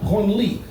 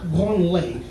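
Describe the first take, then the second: First: The word ends in an 'ee' vowel. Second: The word ends in an 'ay' vowel. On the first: It names the museum. The speaker calls it right. "It's pronounced Branly" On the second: It refers to touching yourself. The speaker calls it wrong. "not Branley"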